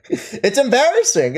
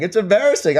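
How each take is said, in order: First: Laughing through it, slowly. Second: Said in the usual way. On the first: Real, not acted. Streamer laughing at a chatter's embarrassing behavior. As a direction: chuckle the words out in disbelief.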